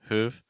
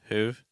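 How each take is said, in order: First: The final V sound is weak and faint. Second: The final V sound is weak and faint.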